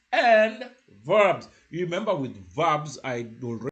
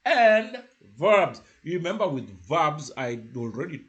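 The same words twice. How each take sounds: The two takes are said the same way.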